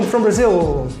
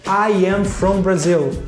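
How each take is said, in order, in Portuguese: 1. Ela é dita rápido, com as palavras juntas. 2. Ela é dita devagar, com palavras claras e separadas.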